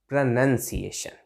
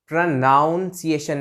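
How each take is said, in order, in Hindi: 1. दूसरा अक्षर 'nun' जैसा सुनाई देता है। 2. दूसरा अक्षर 'nown' जैसा सुनाई देता है। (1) "यहां नन आ रहा है" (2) "प्रोनाउंसिएशन नहीं"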